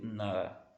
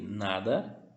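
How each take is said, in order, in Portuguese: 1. O d do meio é quase silencioso. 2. O d do meio é claramente pronunciado. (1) "é como se você não pronunciasse ele" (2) "eu posso ler nada"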